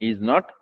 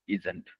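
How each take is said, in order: First: It is said as two full separate words. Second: It is said as one short contracted word.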